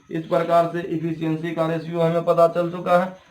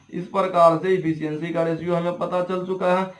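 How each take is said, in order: The two takes are said the same way.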